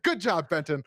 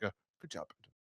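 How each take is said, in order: First: It is said passionately, with great warmth. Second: It is said plainly, without much feeling.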